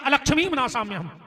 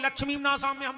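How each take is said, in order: First: The opening 'a' sound is clearly spoken. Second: The opening 'a' sound is dropped. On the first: Asks for misfortune to be destroyed. The speaker calls it right. "शुद्ध उच्चारण है" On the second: Asks for prosperity to be destroyed. The speaker calls it wrong. "आदमी जल्दी जल्दी में पढ़ते"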